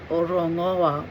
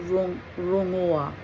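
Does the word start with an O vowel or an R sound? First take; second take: O vowel; R sound. First: The word begins with an extra O vowel. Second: The word begins directly with an R sound. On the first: The speaker calls it wrong. "I probably pronounced that wrong" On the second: The speaker calls it right. "that sounds better"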